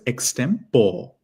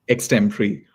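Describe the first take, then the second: First: The word ends in an 'or' sound. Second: The word does not end in an 'or' sound. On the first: The speaker calls it wrong. "a lot of people will pronounce this word as" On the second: The speaker calls it right. "So how do we pronounce this word? It is"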